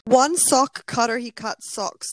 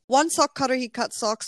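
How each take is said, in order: First: It is read slowly and carefully. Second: It is said quickly.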